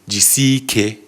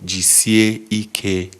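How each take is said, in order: First: The words are run smoothly together. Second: The words are said slowly and crisply apart. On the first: The speaker calls it wrong. "which is how smoothly it's said" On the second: The speaker calls it right. "is clear and crisp"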